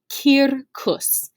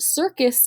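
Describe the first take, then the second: First: The word is said the Latin way. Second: The word is said the English way. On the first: The speaker calls it right. "It is pronounced circus" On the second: The speaker calls it wrong. "it is not, however, pronounced circus in Latin"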